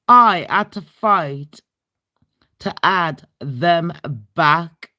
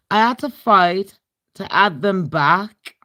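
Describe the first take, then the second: First: "I had to fight" louder and slower, punching "I"; emphatic repeat. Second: Said in the usual way. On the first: Shown as a demonstration. Repeating the guest-list fight to viewers, emphatic and louder. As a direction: lean hard on "I".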